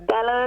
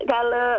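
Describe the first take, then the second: The two takes are said the same way.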